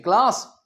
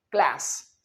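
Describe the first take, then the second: First: CLASS as "klaas"; British pronunciation. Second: CLASS as "klæs"; American pronunciation. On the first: Teacher summing up British English, "klaas" क्लास. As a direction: say first क्लास with long aa. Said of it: "British में". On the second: Teacher summing up American English, "klæs" क्लास. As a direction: say final क्लास with cat-like a. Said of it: "American English में". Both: Shown as a demonstration.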